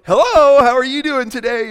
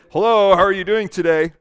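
First: High, loud, beaming phone greeting; audible smile. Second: Said in the usual way. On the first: Shown as a demonstration. Phone support worker greeting a caller, loud and smiling. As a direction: answer with a big smile in the voice. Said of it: "They can hear you smile". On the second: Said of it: "it's different than".

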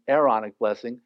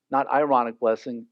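First: Aaronic blessing said as air-RON-ic, from Aaron; correct Aaronic. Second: Ironic blessing said as eye-RON-ic, like the word ironic; wrong word ironic. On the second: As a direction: say ironic blessing with the ironic sound, as the mistake. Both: Shown as a demonstration.

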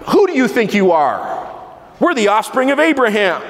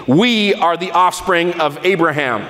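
First: Higher, proud and offended, pushing back; indignant retort. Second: A touch of proud indignation, held back; mildly indignant. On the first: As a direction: bristle at the insult like the offended crowd. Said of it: "Indignation, right?". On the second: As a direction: let the crowd sound a little offended. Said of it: "I believe they probably said it indignantly". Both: Retold or imitated.

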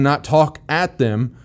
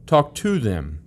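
First: "at" leaned on with a slow pace; "not talk at them", with "at" pressed and drawn out; stress on at. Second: "to" stressed, the line dropping softer; "talk to them" with weight on "to" as the correction. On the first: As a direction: slowly hit the word "at". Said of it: "not yell at them". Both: Shown as a demonstration.

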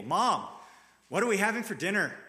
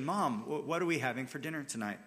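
First: Louder, higher and fast, annoyed whine; grumpy kid flopping into his chair at the table, annoyed. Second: Quick and light, trusting the answer; a kid sure dinner will be good; trusting, thankful ask. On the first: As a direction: demand it like a sulky kid who is fed up waiting. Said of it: "Grumpy kid slams himself down into his chair". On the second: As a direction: ask like you know mom has something good. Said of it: "spoken in love, with trust, and with even a sort of thankful expectation". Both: Shown as a demonstration.

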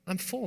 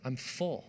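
First: FULL lifted high with a rising tune; I'm full pitched up like a question. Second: Said in the usual way. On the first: Shown as a demonstration. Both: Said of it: "I would say it like this".

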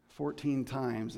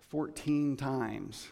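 First: "Fourteen" stressed, slowed down; emphatic repeat. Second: Slow, weighty fourteen times; emphatic repeat. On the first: Preacher repeating the count, "Fourteen" slow and stressed. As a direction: drive home "Fourteen". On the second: Preacher to congregation, stressing "fourteen" slowly. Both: Shown as a demonstration.

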